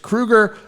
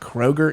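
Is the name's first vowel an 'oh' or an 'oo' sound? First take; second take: oo; oh. First: The first vowel sounds like 'oo'. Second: The first vowel sounds like 'oh'. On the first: The speaker calls it right. "it's Kruger, I think" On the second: The speaker calls it wrong. "it's not Kroger"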